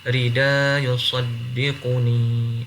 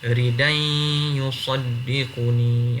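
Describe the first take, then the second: First: The first word ends without an n sound. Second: The first word ends with an n sound. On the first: "Abu Ja'far baca tak ada tanwin" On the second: "Nafi' macam mana?"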